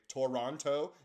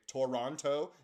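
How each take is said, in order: First: Every syllable of the word is clearly pronounced. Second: Every syllable of the word is clearly pronounced.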